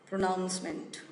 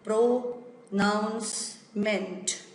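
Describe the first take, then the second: First: The word is said at an ordinary speed. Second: The word is said slowly, split into parts.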